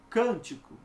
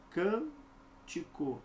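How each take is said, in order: First: Said in the usual way. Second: Cântico split slowly, CÂN, pause, tico; syllable by syllable. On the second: Shown as a demonstration. Teacher showing where the stress falls, cântico slowly split. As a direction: draw out CÂN, then finish cântico. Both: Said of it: "como é que é?".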